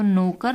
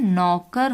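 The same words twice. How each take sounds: First: नौकर read as नोकर, a closed o in the first syllable; teacher sounds नौकर with a plain ओ, no औ; wrong reading. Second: नौकर with the open औ vowel, नौ-कर; the first syllable of नौकर opens round and wide; correct reading. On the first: Teacher shows children the wrong spelling, read as नोकर. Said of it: "तो नौकर नहीं होता है". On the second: Teacher gives children the right sound, नौकर with औ. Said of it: "नौकर होता है". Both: Shown as a demonstration.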